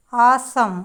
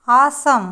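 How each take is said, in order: Both takes have the same delivery.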